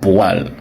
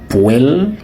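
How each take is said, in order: First: The word sounds just like 'poil'. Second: The word does not sound like 'poil'. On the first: It is proper French. The speaker calls it right. "c'est poil" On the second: It sounds like Creole rather than French. The speaker calls it wrong. "Ce n'est pas poêle"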